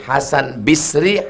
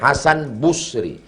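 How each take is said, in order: First: The first syllable of Basri has an i vowel. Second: The first syllable of Basri has a u vowel.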